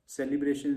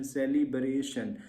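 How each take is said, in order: First: Said in the usual way. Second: सेलिब्रेशन slowly divided as se-li-bre-shan; broken into syllables. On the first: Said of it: "spelling को break कर लो". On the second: Shown as a demonstration. Teacher showing students how to set a word by syllables, सेलिब्रेशन in slow pieces. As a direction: draw out each syllable of सेलिब्रेशन. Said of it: "syllable count कर लो".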